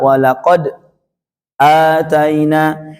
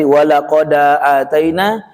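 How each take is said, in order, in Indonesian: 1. Ada jeda diam singkat sebelum ataina. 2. Huruf d langsung menyambung ke ataina tanpa jeda. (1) "dibaca dengan sakta" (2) "dibaca nakal"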